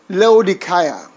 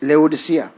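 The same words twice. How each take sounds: First: It follows the original Greek pronunciation. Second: It follows the usual present-day pronunciation. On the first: "originally, the pronunciation should be Laodicea" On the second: "But for whatever reason, it's Laodicea"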